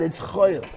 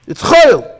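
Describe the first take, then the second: First: Said in the usual way. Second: "chayil" high and loud; shouted chayil. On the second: Real, not acted. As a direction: cry it out to the room. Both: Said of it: "repeated louder".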